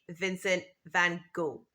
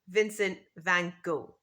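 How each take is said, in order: First: The name ends on a vowel, last letters silent. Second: The same.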